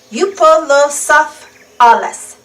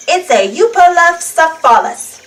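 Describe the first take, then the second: First: Euoplocephalus spelled out slowly, every syllable clear; slow it down so kids can copy Euoplocephalus; slow syllable-by-syllable name. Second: Said in the usual way. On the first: Shown as a demonstration. Reading to children, sounding out Euoplocephalus slowly. Repeating a hard dinosaur name.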